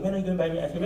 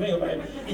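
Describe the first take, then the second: First: Put-on softer whining plea from a kid; nagging child. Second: Higher, softer nagging through a laugh; laughing nag. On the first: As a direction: keep pestering like an impatient child. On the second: Retold or imitated. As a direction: pester again while laughing. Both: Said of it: "you just keep asking".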